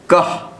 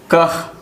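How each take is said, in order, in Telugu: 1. ఈ పదం చివర కేవలం h ధ్వని ఉంటుంది. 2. ఈ పదం చివర కేవలం h ధ్వని ఉంటుంది.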